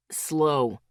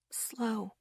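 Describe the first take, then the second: First: Clipped, firm single-word order; a sharp, commanding Slow. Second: A breath of a word, barely voiced; hushed warning to the carriers; whispered. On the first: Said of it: "Asher's voice was sharp now". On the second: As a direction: whisper it, careful and slow. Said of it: "Asher whispered". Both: A narrator's reading.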